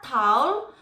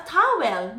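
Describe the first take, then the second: First: "towel" drawn into one syllable, taul; British pronunciation. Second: "towel" as ta-wel, two syllables; Filipino pronunciation. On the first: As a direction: say "towel" slowly as taol, no W. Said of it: "not towel". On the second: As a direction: give "towel" a clear WEL ending. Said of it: "I would know that thing as a towel". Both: Shown as a demonstration.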